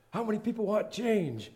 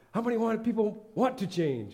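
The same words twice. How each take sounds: First: High, loud preacher call to the congregation; cartoon preacher. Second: Cartoon preacher, slowed. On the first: Cartoon preacher asks the congregation, rousing preacher voice. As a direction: boom it out like a pulpit preacher. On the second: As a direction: drag it out like a preacher testing the crowd. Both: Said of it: "a preacher preaching from the thing".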